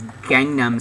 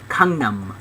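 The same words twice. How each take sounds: First: The word begins with a hard G sound. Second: The word begins with a K-like sound. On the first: This is how English speakers say it. "you guys know it as Gangnam Style" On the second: "in Korea they pronounce it Gangnam, like a K"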